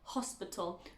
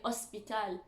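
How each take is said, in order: First: The starting H sound is clearly breathed. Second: The starting H sound is dropped. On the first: The speaker calls it right. "the H at the beginning of words is not silent" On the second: The speaker calls it wrong. "We don't say"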